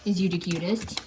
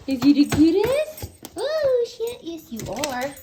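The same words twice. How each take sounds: First: Said in the usual way. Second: Talking to a dog. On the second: Real, not acted. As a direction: squeal with delight at the puppy. Repeated cooing at puppy.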